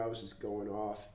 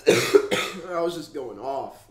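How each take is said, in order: First: Said in the usual way. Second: Slow and loud, pressing on each word; emphatic louder retelling. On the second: Real, not acted. Telling viewers how he raged earlier. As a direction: lean hard into it to show how upset he was. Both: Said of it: "You guys should have heard me".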